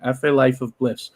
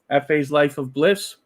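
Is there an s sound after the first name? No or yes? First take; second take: no; yes. First: No s sound follows the first name. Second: An s sound follows the first name. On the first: The speaker calls it right. "Hopefully that's right" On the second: The speaker calls it wrong. "I'm pronouncing it wrong. I keep putting an S in there"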